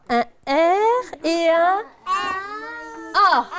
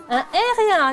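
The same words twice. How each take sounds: First: Slow, drawn-out un R et un A; slow spelling out. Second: Said in the usual way. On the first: Shown as a demonstration. Teacher spelling out the letters for pupils, slow. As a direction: spell it out slowly for the children.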